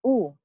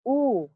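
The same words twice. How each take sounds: First: OO said short, as in book; short U sound. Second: OO held long, as in food; long U sound. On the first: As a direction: keep OO brief, like should. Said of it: "longer than the short U". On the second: Teacher demonstrating high tongue height, long OO. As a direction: draw OO out slowly. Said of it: "the long U is pronounced longer". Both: Shown as a demonstration.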